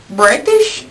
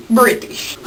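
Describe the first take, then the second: First: "British" with a long "eye" vowel, rising; questioned pronunciation. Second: "British" with a short "i", falling; corrected pronunciation. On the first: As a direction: ask "British?" as if rhyming the start with "bright". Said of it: "make up my sucky British". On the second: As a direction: settle on "British" with the vowel of "bit". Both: Shown as a demonstration.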